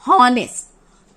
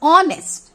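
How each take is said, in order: First: The word begins with an h sound. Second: The word begins with a vowel sound. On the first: The speaker calls it wrong. "Not हॉनेस्ट" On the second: The speaker calls it right. "इसको हम क्या pronounce करते हैं? ऑनेस्ट"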